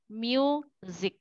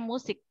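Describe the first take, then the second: First: The word is said with English pronunciation. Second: The word is said with Indonesian pronunciation. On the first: This is the English word. The speaker calls it right. "Tapi kalau bahasa Inggris, music" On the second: This is the Indonesian word. The speaker calls it wrong. "Musik itu bahasa Indonesia musik"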